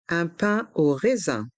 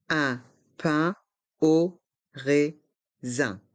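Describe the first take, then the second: First: Said in the usual way. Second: Slow "Un pain au raisin", every syllable apart; learner-paced, split "Un pain au raisin". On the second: Shown as a demonstration. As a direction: separate each sound of "Un pain au raisin". Teacher breaks phrase into syllables.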